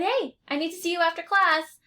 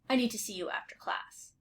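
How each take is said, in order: First: It sounds warm and friendly. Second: It sounds stern and serious.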